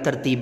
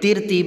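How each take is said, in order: First: The first syllable has an a vowel. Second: The first syllable has an i vowel. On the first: The speaker calls it right. "असल जो इसका तलफ़ुज़ बनेगा" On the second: The speaker calls it wrong. "तिरतीब नहीं पढ़ेंगे"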